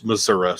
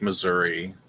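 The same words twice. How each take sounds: First: "Missouri" ending in "uh"; local pronunciation. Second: "Missouri" ending in "ee"; standard pronunciation. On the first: Correcting self to the local form, "Missouri" with "uh" ending. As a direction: say "Missouri" as Mizzuruh. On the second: Joking that they don't speak English, "Missouri" with "ee" ending. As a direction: say "Missouri" as Mizzuree. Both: Shown as a demonstration. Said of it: "or s-, Missouri, sorry".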